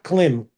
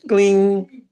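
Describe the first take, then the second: First: The word ends with an m sound. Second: The word ends with an ng sound. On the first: The speaker calls it wrong. "it's not klim" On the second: The speaker calls it right. "the M sound is N G sound"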